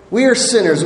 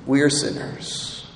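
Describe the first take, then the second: First: Said in the usual way. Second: Breathy whisper, lower and much softer; whispered confession. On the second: Shown as a demonstration. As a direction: let it slip out like a confession.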